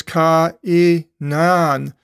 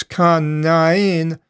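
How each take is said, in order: First: Ka-i-nan, each vowel said apart, slowly; Ka-i-nan spelled out syllable by syllable, slow; split syllables. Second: Kanain with the stress on the last syllable; Kanain, accent towards the end; end-stressed variant. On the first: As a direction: sound out Ka-i-nan, the alpha and the iota separated. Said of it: "you split the pronunciation with each letter". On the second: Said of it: "accent on towards the end". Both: Shown as a demonstration.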